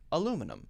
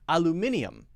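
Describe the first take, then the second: First: The word is said with four syllables. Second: The word is said with five syllables. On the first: This is the American way of saying it. "Americans say aluminum" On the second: This is the British way of saying it. "British people say aluminium"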